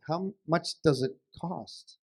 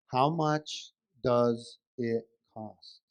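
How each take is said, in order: First: "how much does it cost" a bit slow; patient, slightly slowed "how much does it cost"; measured question. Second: "How... much... does... it... cost", very slow and low; low, strained-patience "How much does it cost", each word separate; exaggeratedly slow question. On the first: Acted. Husband asks wife the price. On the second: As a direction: spell it out word by word, as if not understood. Exasperated husband repeats the question slowly.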